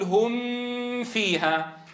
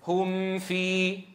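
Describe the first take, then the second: First: The nasal m is held very long. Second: The nasal m is held moderately. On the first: The speaker calls it wrong. "أو بتطويله" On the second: The speaker calls it right. "الأصل أن تعطيها زمن الغنة الناقصة"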